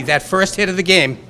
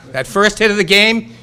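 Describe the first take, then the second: First: Said in the usual way. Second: Pumped-up, punching out the words; rally the crowd with it; louder rallying call. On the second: Shown as a demonstration. Repeats line to rouse crowd.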